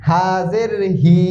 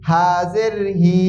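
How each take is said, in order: No difference in how they are said.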